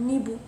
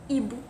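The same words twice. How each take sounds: The two takes are said the same way.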